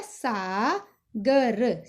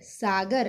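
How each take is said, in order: First: Very slow, each letter drawn out; slow spelled out. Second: Said in the usual way. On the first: Shown as a demonstration. Teacher to pupil, very slow sounding out. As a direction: lay the letters out one by one. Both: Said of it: "अगर हम इसकी आ की मात्रा हटा देंगे".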